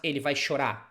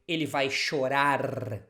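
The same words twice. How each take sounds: First: The final R of chorar is dropped. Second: The final R of chorar is pronounced. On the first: The speaker calls it wrong. "And not ... that's how people speak sometimes" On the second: The speaker calls it right. "it should be the correct way"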